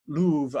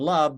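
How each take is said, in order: First: The vowel sounds like the one in move. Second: The vowel sounds like the one in glove. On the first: This is how it was said in Shakespeare's time. "but it was move and louvre" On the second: This is the modern pronunciation. "move and love don't rhyme in modern English"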